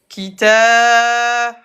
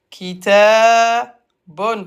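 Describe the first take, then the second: First: The word ends on a bare 'b' sound. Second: The word ends with an 'un' sound after 'b'. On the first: The word ends the phrase. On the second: The word is read in full, not at a stop.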